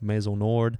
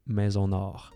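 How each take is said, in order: First: It is said with an English accent. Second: It is said with a French accent. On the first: This is how an English speaker says it. "English people will try to say it. Lewis House, when he says it, is just like" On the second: This is how a native French speaker says it. "if you want to say it as in a real French accent"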